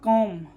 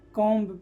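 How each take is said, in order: First: The b is silent, no b sound heard. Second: A b sound is pronounced after the m. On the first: The speaker calls it right. "बी यहाँ पर क्या है, silent है" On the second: The speaker calls it wrong. "ना कि कॉम पढ़ते हैं"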